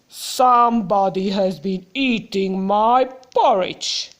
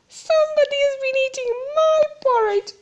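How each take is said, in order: First: It is said in a loud, growly voice. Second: It is said in a plain, not growly voice.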